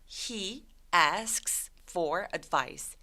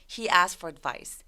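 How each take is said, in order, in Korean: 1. 천천히 말하면 K 소리를 발음합니다. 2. "asks"의 K 소리는 빠집니다. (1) "천천히 발음한다면" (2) "중간에 K를 삭제시켜서"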